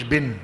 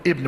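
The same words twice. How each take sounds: First: بن said short as ben, no opening vowel; بن without the alif. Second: ابن said with a clear opening i sound, ebn; ابن with the alif. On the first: Teacher contrasting the short form بن, said ben with no vowel. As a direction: clip it to ben with no first vowel. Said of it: "ما قلتش بن". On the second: Teacher showing students how he says ابن, with the opening vowel. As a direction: give the full ابن, starting with the vowel. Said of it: "إزاي أنا بقول ابن". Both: Shown as a demonstration.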